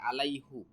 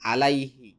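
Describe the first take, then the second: First: The word ends with the sound hu. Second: The word ends with the sound hi. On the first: This is the unchanged form, found once in the Quran. "কিন্তু কোরআনে একটা জায়গায় আছে আলাইহু" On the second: This is the usual form, changed for ease of pronunciation. "এখানে হি আসছে"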